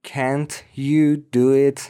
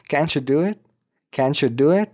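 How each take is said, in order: First: Slow "can't you do it", word by word; separate words. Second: "Can't you" blended as "canchu", rising question; ch sound. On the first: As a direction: keep "can't" and "you" apart, no ch. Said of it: "آخرش تی و بعدش یو داریم". («can't you» شمرده و جدا) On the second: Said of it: "ما صدای چ داریم". («Can't you» پیوسته با صدای چ) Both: Shown as a demonstration.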